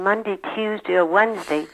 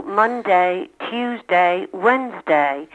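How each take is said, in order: First: "Monday, Tuesday, Wednesday" ending in a short "dee"; older -dy ending. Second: "Monday, Tuesday, Wednesday" with a full "DAY"; full -day ending. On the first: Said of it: "Philadelphians of my generation". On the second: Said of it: "the young people in the family go". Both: Shown as a demonstration.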